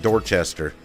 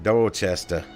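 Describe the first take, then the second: First: It is said without a Boston accent. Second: It is said with a Boston accent. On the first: This is the speaker's own way of saying it. "I pronounce it Dorchester" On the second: This is how a Boston native said it. "He pronounced it Dorchester"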